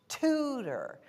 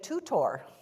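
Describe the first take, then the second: First: The last syllable has a reduced 'er' sound. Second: The last syllable has a full 'or' sound. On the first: The speaker calls it right. "And the word was tutor" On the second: The speaker calls it wrong. "I would say for years"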